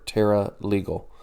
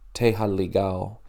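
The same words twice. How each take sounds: First: The name is pronounced with English sounds. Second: The name is pronounced with Portuguese sounds.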